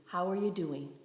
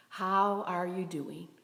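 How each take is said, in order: First: Said in the usual way. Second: "How are you doing" drawn out slowly; slow, sincere repeat of the question; slow, deliberate check-in. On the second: Real, not acted. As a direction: ask "How are you doing" slowly, giving each word room.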